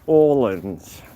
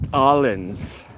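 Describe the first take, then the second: First: The first vowel sounds like 'o'. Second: The first vowel sounds like 'a'. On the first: The speaker calls it right. "pronounced like an O" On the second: The speaker calls it wrong. "not Allens"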